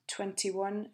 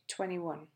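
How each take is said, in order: First: The t sound after n is clearly pronounced. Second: The t sound after n is left out.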